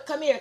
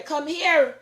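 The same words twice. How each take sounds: First: Raised voice calling someone over. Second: Higher, louder repeat of the call. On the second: Calling a grandchild again. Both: Real, not acted.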